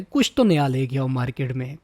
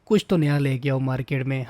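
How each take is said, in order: First: तो pushed with a rise; stress on तो. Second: कुछ hit hard, tune falling; stress on कुछ. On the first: Mocking the creator, stress on तो. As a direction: lean on तो in "कुछ तो नया". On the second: Repeating the demand to the creator, stress on कुछ. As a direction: punch कुछ in "कुछ तो नया". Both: Shown as a demonstration. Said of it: "repeated for emphasis".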